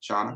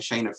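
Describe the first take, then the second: First: The first vowel sounds like 'aw'. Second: The first vowel sounds like 'ay'. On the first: The speaker calls it right. "That's correct today" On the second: The speaker calls it wrong. "I've been calling you Shauna and Shayna for months"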